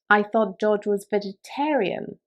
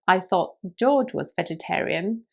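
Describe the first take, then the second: First: The stress falls on the word vegetarian. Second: The stress falls on the word George. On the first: He is vegetarian rather than vegan. "If you stress the word vegetarian" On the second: It was George, not someone else, who was vegetarian. "When you stress the word George"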